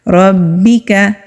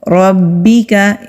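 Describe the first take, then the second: The two takes are said the same way.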